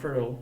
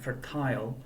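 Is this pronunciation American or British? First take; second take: American; British. First: It is said with an American accent. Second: It is said with a British accent.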